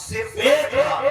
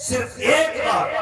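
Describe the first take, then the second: First: Said in the usual way. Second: Slow, deliberate repeat. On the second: Shown as a demonstration.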